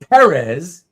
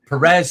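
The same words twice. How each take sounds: First: The stress is on the first syllable. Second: The stress is on the second syllable. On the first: The speaker calls it right. "It's supposed to be Perez" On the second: The speaker calls it wrong. "It just comes out as Perez so much more easily"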